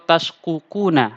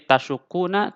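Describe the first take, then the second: First: The two qaf sounds are said separately. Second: The two qaf sounds merge into one doubled sound. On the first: The speaker calls it wrong. "atau tashkukuna, ah, enggak" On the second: The speaker calls it right. "tapi tetap ditasydidkan"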